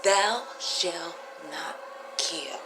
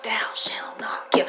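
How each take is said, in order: First: Very slow, each word weighed; slow solemn quote. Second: Whispered, almost voiceless; hushed commandment quote. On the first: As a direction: lay the words down one by one. Repeats commandment, drawn out. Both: Shown as a demonstration.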